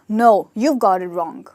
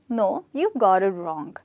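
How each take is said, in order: First: It sounds harsh and rude. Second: It sounds soft and pleasant.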